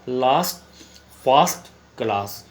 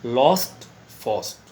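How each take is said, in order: First: लास्ट फास्ट क्लास with an open long a, slowly; teacher contrasting British and American; British pronunciation. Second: लॉस्ट and फर्स्ट with a rounded aw; teacher contrasting British and American; American pronunciation. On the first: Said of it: "यदि British में pronunciation करेंगे". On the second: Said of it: "American में देखेंगे तो". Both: Shown as a demonstration.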